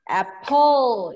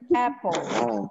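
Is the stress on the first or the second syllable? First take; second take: second; first. First: The stress is on the second syllable. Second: The stress is on the first syllable. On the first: The speaker calls it wrong. "It's not apple" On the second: The speaker calls it right. "It should be apple"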